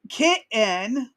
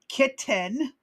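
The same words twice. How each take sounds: First: The T sounds are dropped from the word. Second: The T sounds are clearly pronounced. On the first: "kitten without the T's" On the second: "for those of y'all who need some enunciation"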